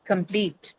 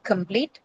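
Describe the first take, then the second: First: "complete" with stress on -plete; corrected model of "complete", long stressed -plete; correct second-syllable stress. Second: "complete" with stress moved onto com-; wrongly placed stress. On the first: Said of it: "stress to shift from the first syllable to the second". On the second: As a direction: show the mistake: COM-plete for "complete". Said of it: "not complete". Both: Shown as a demonstration.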